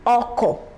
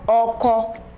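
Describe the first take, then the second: First: The pitch goes from mid to low. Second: The pitch stays mid on both syllables. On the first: "Re, Do" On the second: "Re, Re"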